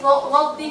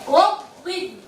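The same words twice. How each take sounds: First: The first consonant is said with unrounded lips. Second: The first consonant is said with rounded lips. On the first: The speaker calls it wrong. "lotin aja berarti belum memanjang muncungnya" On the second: The speaker calls it right. "Muncungnya itu memanjang"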